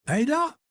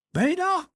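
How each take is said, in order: First: High rising call up the stairs; bawling upstairs. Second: High call falling at the end; bawling upstairs. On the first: Husband bawls up the stairs for his wife, high rising call. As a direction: call the wife's name with a rise. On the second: Husband bawls again for his absent wife, high falling call. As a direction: call her name again, dropping it. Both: Acted. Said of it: "He bawled upstairs".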